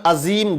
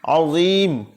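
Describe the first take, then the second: First: The middle consonant is a plain light sound. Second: The middle consonant is a heavy emphatic sound. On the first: The speaker calls it wrong. "बहुत से लोग अजीम अजीम गलत पढ़ते हैं" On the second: The speaker calls it right. "सुभान रब्बियल अज़ीम"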